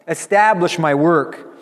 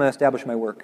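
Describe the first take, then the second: First: It is said in a joyful, happy voice. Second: It is said in a flat, bored way. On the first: "And he says it with joy" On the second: "He doesn't say it in kind of a boring"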